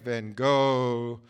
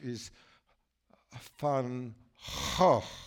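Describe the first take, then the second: First: The name ends without a throaty guttural sound. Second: The name ends with a throaty guttural sound. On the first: This is how it is said in America. "so there's in America" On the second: This is the original Dutch way. "The original way to pronounce the Netherlands, the Dutch, ... It's the guttural"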